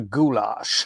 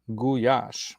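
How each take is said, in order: First: The middle consonant is an L sound. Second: The middle consonant is a Y sound. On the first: The speaker calls it wrong. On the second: The speaker calls it right.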